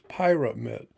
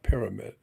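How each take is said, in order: First: The first part sounds like 'pyre', as in fire. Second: The first part sounds like 'peer', as usual. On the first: The speaker calls it right. "it's pyramid. P Y R A, which is a word for fire" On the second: The speaker calls it wrong. "it's not pyramid"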